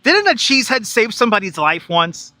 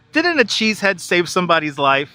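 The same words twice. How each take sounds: First: Said in the usual way. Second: Rereads the line through a laugh. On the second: Real, not acted. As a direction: chuckle while repeating the question.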